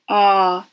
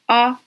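First: The vowel is drawn out long. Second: The vowel is short.

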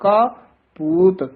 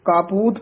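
First: There is a short pause between the words. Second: The two words run together without a break. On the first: The speaker calls it right. "ਥੋੜਾ ਜਿਹਾ ਰੁਕ ਕੇ ਬੋਲਣਾ ਹੈ" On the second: The speaker calls it wrong. "ਕਾਪੂਤ ਪਾਠ ਨਹੀਂ ਕਰਨਾ"

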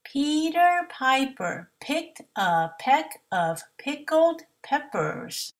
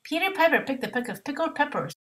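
First: It is said at a slower pace. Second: It is said as fast as possible.

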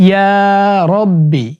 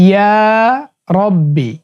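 No difference in how they are said.

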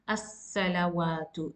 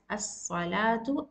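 First: A clear w sound in the middle. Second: A long a sound, with no w sound. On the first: The speaker calls it wrong. "and not as-salawatu. It's totally wrong" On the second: The speaker calls it right. "you will prolong the sound and pronounce as as-salatu"

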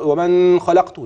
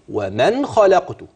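First: The n is held with a nasal hum. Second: The n is said plainly, without nasal hold. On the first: The speaker calls it wrong. "اوعى تغلط زي ما بعض بيقرأ" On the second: The speaker calls it right. "النون ما فيش فيها غنة، انا بقولها ايه؟"

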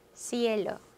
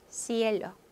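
The two takes are said the same way.

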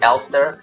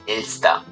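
First: Pronounced in an anglicized way. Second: Pronounced in the German way. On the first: "In the community it's Elster" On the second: "but in Germany it is Elster"

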